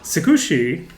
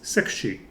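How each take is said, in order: First: The u vowel after the k is clearly voiced. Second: The u vowel after the k is nearly silent. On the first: "the way that I'm pronouncing it there, ... not pronouncing it the way that they would pronounce it in Japan" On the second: "the U there is mostly silent, so it's just Sakushi"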